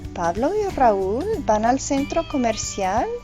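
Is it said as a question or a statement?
question. It is said with a question intonation. It asks whether it is true. "is a question"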